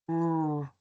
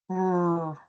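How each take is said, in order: Both takes have the same delivery.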